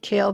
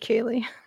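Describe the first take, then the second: First: The final E is silent, giving one syllable. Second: The final E is voiced, giving two syllables. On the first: The speaker calls it wrong. "They kept calling her Kale. I'm like, she can't be Kale" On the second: The speaker calls it right. "That's got to be Kaylee"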